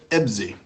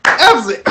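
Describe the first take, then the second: First: Said in the usual way. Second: High, squeaky crack on the name. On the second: Real, not acted. Host calling out the guest's name, voice cracking high. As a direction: overshoot the announcement so the voice cracks upward. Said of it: "My voice is still growing".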